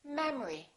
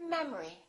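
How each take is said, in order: The two takes are said the same way.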